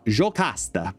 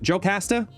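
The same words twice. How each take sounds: First: The name is said with a Brazilian Portuguese accent. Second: The name is said with an English-speaking accent. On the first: "the Brazilian Portuguese in me wants to read it as"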